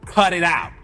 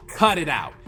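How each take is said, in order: Both takes have the same delivery.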